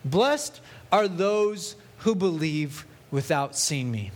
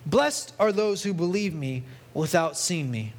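First: Slow, with weight on "Blessed"; emphasised verse. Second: Said in the usual way. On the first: Shown as a demonstration. Preacher stressing the key verse to the congregation, slow and weighty. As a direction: lean hard on "Blessed", then draw out each word. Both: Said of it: "I want to put an emphasis on this".

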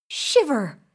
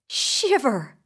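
No difference in how they are said.

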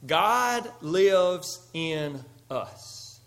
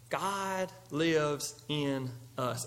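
First: Slow, every word weighted, stress on God; slow emphasis. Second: Slow and much softer, weight on "lives"; soft repeat. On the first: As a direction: lean hard on "God", drawn out. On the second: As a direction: let it sink in, hushed. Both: Shown as a demonstration.

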